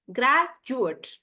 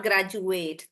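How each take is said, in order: First: "graduate" split, big GRAD, small "jut"; noun pronunciation. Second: "graduate" lower and slow, long "ATE"; "graduate" as "grad-ju-AYT"; verb pronunciation. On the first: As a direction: hit GRAD, shorten the end of "graduate". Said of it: "For the noun". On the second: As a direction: stretch the end of "graduate". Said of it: "That's the verb". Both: Shown as a demonstration.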